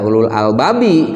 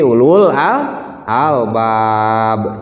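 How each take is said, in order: First: The last word ends with an added 'i' vowel. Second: The last word ends on the bare consonant 'b'. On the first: The reading continues into the next verse. The speaker calls it wrong. "jangan dibaca ulul albabi kalau mau berhenti" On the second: The reading stops at the end of the verse. The speaker calls it right. "tapi ulul al albab"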